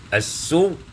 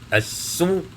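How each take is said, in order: The two takes are said the same way.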